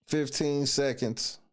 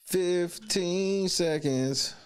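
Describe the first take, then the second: First: Said in the usual way. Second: Slow, stretched countdown; drawn out slowly. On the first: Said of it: "countdown for the vote". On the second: Shown as a demonstration. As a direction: stretch each word out. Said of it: "countdown repeated drawn out".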